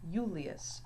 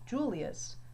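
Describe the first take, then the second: First: The word begins with a Y sound. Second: The word begins with a J sound. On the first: The speaker calls it right. "but Julius. So the I has more of a Y sound here" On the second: The speaker calls it wrong. "it is not pronounced Julius"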